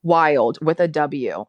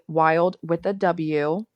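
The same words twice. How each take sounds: First: Slow and louder, "Wild with a W" stressed; spelling out W. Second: "wild with a W" slow, each word spelled out; spelling out W. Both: Shown as a demonstration. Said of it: "I have to say with a W".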